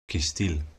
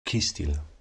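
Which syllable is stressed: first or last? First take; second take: last; first. First: The stress is on the last syllable. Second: The stress is on the first syllable. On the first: The word is a noun, adjective or adverb. "the stress or emphasis falls on the very last non-schwa vowel" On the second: The word is a verb or verb form. "the emphasis falls on the second to last non-schwa vowel"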